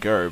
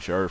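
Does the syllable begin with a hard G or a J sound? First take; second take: hard G; J. First: The syllable begins with a hard G sound. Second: The syllable begins with a J sound. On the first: The speaker calls it wrong. "I keep saying Gur, but it sounds so much better" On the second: The speaker calls it right. "it is supposed to be Jur ... like Ranger"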